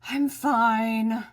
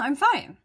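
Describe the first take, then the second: First: It is said in a sarcastic, grudging tone. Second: It is said in a sincere, open tone. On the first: The speaker is actually not okay. "the timing, the eye roll, the tone... I'm really not fine" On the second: The speaker really is okay. "the tone of my voice... yep, I really am fine"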